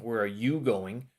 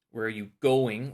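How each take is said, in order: First: YOU drawn out and lifted; slow line leaning on YOU; stress on YOU. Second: GOING punched louder; stress on GOING. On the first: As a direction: put the weight on "you". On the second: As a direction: put the weight on "going". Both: Shown as a demonstration. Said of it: "where you're putting the stress".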